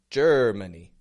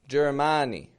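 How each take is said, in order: First: The middle vowel is a weak schwa. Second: The middle vowel is a full, strong vowel. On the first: The speaker calls it right. "Putting that schwa in the middle" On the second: The speaker calls it wrong. "But I'm not giving it a Germany"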